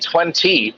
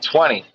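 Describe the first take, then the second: First: The middle T sound is clearly pronounced. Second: The middle T sound is left out. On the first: "I don't even say twenty" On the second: "I don't even make the T sound"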